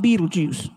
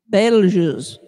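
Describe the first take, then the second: First: The name sounds just like the movie title. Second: The name does not sound like the movie title. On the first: The speaker calls it wrong. "not Beetlejuice" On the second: The speaker calls it right. "it is not pronounced like the movie"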